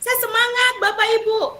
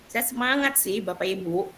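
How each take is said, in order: First: The voice sounds lively and enthusiastic. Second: The voice sounds flat and reluctant. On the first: The speaker is truly excited. "Perhatikan wajah saya ya, dan ekspresinya" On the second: The speaker is not really excited. "Tapi ya tadi macet, ya gimana ya?"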